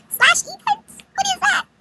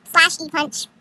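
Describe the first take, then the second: First: Very high, baffled question; pitched-up bewildered query; incredulous echo. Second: Said in the usual way. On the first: Retold or imitated. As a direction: squeak it back in disbelief.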